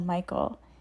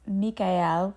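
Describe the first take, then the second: First: The name is said with the usual English pronunciation. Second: The name is said with a German-like pronunciation. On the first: "we've all just come to know him as Archangel Michael" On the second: "the actual pronunciation of his name is Michael, which sounds more to me like the German pronunciation"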